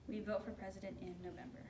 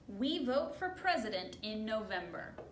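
First: The sentence is said at a normal volume. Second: The sentence is said at a loud volume. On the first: "could you repeat that?" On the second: "Can you say that louder?"

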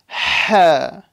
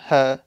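First: The h is rasped from deep in the throat. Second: The h is light and breathy, not from the throat. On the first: The speaker calls it right. "Make sure you say it from the throat though" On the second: The speaker calls it wrong. "Don't say ha, ha. I'm going to say that's a mistake"

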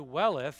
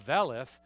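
First: The word begins with a W sound. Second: The word begins with a V sound. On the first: "it's a welleth" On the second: "even the W could pronounce as a V"

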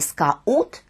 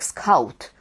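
First: The 'a' and 'u' are two separate vowels. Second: The 'au' glides as one diphthong, like 'av'. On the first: The speaker calls it wrong. "а не скаут, як ми маємо сьогодні" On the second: The speaker calls it right. "в англійській мові його вимовляють як «скаут»"

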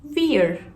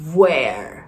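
First: It begins with a V made at the lips. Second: It begins with a rounded W sound. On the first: "Ama V ile söylesem sadece dudaktan çıkar" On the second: "Ama W olduğunda çeneden geliyor o basınç"

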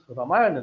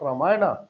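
First: The word ends on the consonant, no final vowel. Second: The word ends with an added final 'a' vowel. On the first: The speaker calls it right. "It is Ramayana" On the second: The speaker calls it wrong. "not Ramayana"

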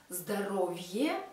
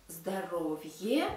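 The two takes are said the same way.

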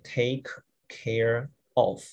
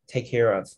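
First: The three words are said separately, with two k sounds. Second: The three words are linked together, with one k sound. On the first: The speaker calls it wrong. "you don't say take care of, right?" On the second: The speaker calls it right. "You will connect them together"

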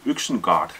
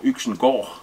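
First: The final syllable has a plain 'a' vowel. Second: The final syllable has an 'o'-like vowel. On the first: "a little Viking village called Yxengard" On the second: "if you take two A's, it makes O in Danish"

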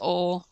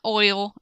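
First: The word is said with a flat 'aw' sound. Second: The word is said with a full 'oy' sound. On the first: "it's oil" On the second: "it's not oil"

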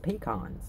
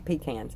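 First: It is said in the speaker's usual pronunciation. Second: It is said in a Southern pronunciation. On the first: "I've always called them pecans" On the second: "some people in the South say pecans"

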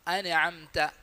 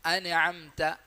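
Both takes have the same delivery.

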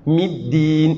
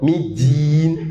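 First: The d is a plain stop without hissing. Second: The d has a whistling, z-like hiss. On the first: The speaker calls it right. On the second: The speaker calls it wrong.

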